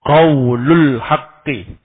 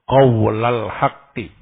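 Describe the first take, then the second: First: The l of qaul is followed by u. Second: The l of qaul is followed by a. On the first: The phrase is read as a predicate: this is the true word. "lamnya dirafa" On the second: The phrase is read as an object: I say the true word. "membaca dengan menasab lam"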